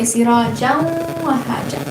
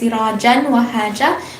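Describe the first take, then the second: First: The n merges into wa with a nasal sound. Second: The n sound is pronounced clearly before wa. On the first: The speaker calls it right. "you combine it and you you um, put a ghunna" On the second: The speaker calls it wrong. "You would read as sirajan wa haja, and instead of saying it like that"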